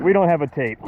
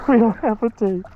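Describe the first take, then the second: First: Said in the usual way. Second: Excited. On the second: Real, not acted. Repeat of line 49, higher.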